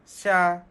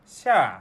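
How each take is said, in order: First: The pitch of the syllable does not fall. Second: The pitch of the syllable falls. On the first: It means to be blind. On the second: It means summer.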